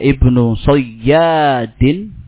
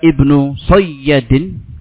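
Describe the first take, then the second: First: The vowel after the y is held long. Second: The vowel after the y is kept short. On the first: "ya tasjid, dan ya-nya panjang" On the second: "ya-nya pendek, bertasjid"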